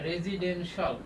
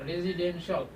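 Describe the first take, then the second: The two takes are said the same way.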